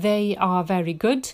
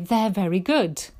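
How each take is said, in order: First: They are is said as two full words. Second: They are is contracted into one syllable. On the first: The speaker calls it wrong. "instead of saying they are very good" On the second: The speaker calls it right. "it's much better to say they're very good"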